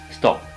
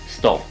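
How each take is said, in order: First: The final p sound is very weak. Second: The final p sound is left out. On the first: "or it's it's very weak" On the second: "either the sound is not there"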